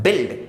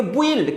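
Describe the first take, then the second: First: बिल्ड with silent u, like bild; correct build. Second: बुइल्ड with the u sounded, bu-ild; wrong build. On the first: Teacher gives students the right बिल्ड. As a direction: says बिल्ड with no u sound. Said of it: "आपको पढ़ना है बिल्ड". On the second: Teacher imitates kids misreading बुइल्ड. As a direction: says बुइल्ड as children wrongly would. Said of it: "लिखा है बुइल्ड but आपको पढ़ना है बिल्ड". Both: Shown as a demonstration.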